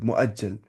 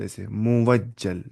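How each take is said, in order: First: The middle has a glottal catch, no w sound. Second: A clear w sound is pronounced in the middle. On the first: The speaker calls it right. "असल ये मुअज्जल ही है" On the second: The speaker calls it wrong. "अगर हम पढ़ेंगे ऐसे, वो हो गया मुवज्जल"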